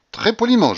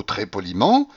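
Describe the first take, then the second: First: "très poliment" much higher and louder; insistent repetition. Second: Said in the usual way. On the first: A narrator's reading. Young man justifying himself to the general, insisting on "très poliment". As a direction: stress "très poliment" as if swearing to it.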